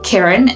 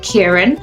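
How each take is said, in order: First: The first vowel lacks the 'ear' sound. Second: The first vowel has the 'ear' sound. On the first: This is how people who cannot make that sound say it. The speaker calls it wrong. "My parents couldn't pronounce the ear sound" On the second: This is the intended pronunciation of the name. The speaker calls it right. "instead of"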